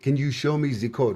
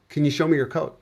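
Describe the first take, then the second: First: It is said in a Russian accent. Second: It is said in a plain accent.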